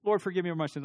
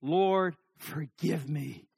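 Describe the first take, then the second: First: Quick, perfunctory prayer, tossed off; a hurried box-ticking confession; offhand rushed prayer. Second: Slow prayer, a pause after Lord; slow, separated, earnest plea; deliberate heartfelt prayer. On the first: Acted. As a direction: rattle off the prayer in one breath. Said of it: "And we move on". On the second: Shown as a demonstration. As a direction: weigh each word as you pray.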